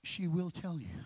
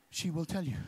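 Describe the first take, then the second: No difference in how they are said.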